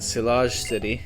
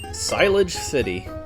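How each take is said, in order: First: The name is pronounced with a French sound. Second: The name is pronounced with an English sound. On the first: The speaker calls it right. "I should probably be going more French with the pronunciations" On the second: The speaker calls it wrong. "when I got here on my first playthrough, I was like"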